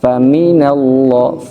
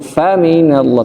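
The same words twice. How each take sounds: First: Fa is low and the mi syllable rises. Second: The first syllable fa is raised in pitch. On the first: The speaker calls it right. "fa-nya rendah, mimnya ngangkat" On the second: The speaker calls it wrong. "bukan faminallah"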